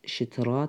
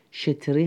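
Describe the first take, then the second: First: شترا ending in a long "aa"; form as pronounced. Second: شتری ending in a long "ee"; form as written. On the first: Teacher showing students how it is pronounced, شترا with an "aa" ending. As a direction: say شترا with a final "-raa". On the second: Teacher showing students the written form, شتری with an "ee" ending. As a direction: say شتری with a final "-ri". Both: Shown as a demonstration.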